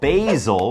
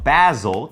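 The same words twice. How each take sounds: First: It is said in a non-British accent. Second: It is said in a British accent.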